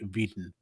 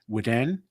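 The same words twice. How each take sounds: First: The name has a German or Dutch-style pronunciation. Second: The name has a French-style pronunciation. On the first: This is how German or Dutch speakers say it. "in German or Dutch people say" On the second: This is how a French bearer of the name says it. "A French friend of my high school had had that name and pronounced it"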